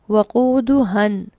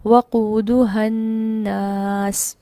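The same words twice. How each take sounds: First: वक़ूदुहन said slowly, short final a; word read alone. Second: वक़ूदुहन्नास chanted very slowly, ha short, doubled n; joined recitation. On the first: Teacher isolates the word for students, slow. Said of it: "लफ्ज़ क्या पढ़ा?". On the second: Teacher recites the full joined phrase after the isolated word. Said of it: "यहाँ पर हा अलग से इसको लंबा नहीं किया गया". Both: Shown as a demonstration.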